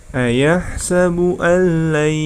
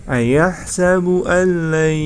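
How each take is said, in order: The two takes are said the same way.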